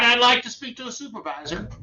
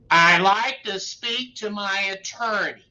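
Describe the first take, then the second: First: Said in the usual way. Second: Slow, deliberate and firm on like; correct version. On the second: Shown as a demonstration. Lawyer giving the correct magic words, slow and firm. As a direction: lay down the right words slowly. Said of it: "Why is that?".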